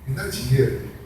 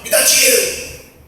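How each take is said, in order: First: It is said in a soft, sweet tone. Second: It is said in a harsh, demanding tone. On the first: The child is asking for money kindly. "de maneira terna" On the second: The child is rudely demanding money. "de maneira agressiva"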